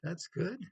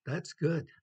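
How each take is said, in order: First: That's good rising on good like a question; questioning rise. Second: Good punched louder and up; That's good with the weight on good; stress on good. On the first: Teacher showing inflection as a doubtful question. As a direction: ask it, rising at the end on good. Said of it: "the inflection". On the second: Teacher demonstrating inflection with good stressed. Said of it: "I'll give you an example". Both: Shown as a demonstration.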